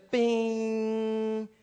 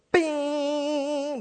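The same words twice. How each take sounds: First: Long, dead-steady held bing; in-tune string ring. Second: Higher, uneven held bing sliding down; out-of-tune string ring. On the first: Showing the piano once tuned, steady bing. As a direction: hold one even note without wavering. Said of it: "but it was". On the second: Showing what the piano no longer did, wavering bing. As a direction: ring out like a string still off pitch. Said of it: "until it was no longer". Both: Shown as a demonstration.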